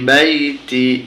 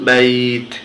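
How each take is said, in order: First: The word ends with a short final i vowel. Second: The word ends on the consonant, vowel dropped. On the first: The reading continues without stopping. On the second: The reader stops at this word.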